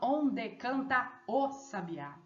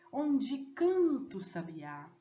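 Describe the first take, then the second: First: The vowels of 'canta o' are kept separate. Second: The vowels of 'canta o' merge into one syllable. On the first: The speaker calls it wrong. "Eu não falo" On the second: The speaker calls it right. "A fusão ali, ó, do tá e o ó"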